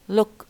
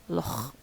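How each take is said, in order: First: The word ends in a hard k stop. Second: The word ends in a raspy kh sound. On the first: "instead of saying look" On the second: "they say loch"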